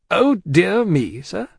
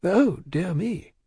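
First: Slow, high, indignant repeat; taken aback, drawn out and forceful; affronted echo. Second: Slow, higher, discreet dismay; drawn-out polite alarm; dismayed cry. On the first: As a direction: throw it back as an offended challenge. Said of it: "repeated Stryver, drawing back". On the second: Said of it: "cried Mister Lorry". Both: A narrator's reading.

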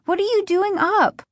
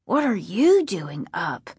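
First: High-pitched, jolted question; startled questioning. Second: Sleepy mumbled echo; drowsy, barely awake; half asleep. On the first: A narrator's reading. Sister finding her brother in the kitchen at night, startled questioning. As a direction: ask it high, still rattled by the fright. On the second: Acted. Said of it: "half asleep".

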